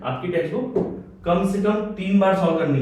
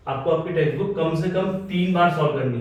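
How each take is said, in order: First: "कम से कम तीन बार" spelled out slowly, each word weighted; teacher drilling the students on "कम से कम तीन बार"; slow emphatic repeat. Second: Said in the usual way. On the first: Shown as a demonstration. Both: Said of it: "कितनी बार बोला मैंने?".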